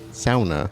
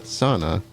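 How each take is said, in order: First: The first syllable sounds like 'sow'. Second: The first syllable does not sound like 'sow'. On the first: The speaker calls it right. "sauna, sow" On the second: The speaker calls it wrong. "Not sauna"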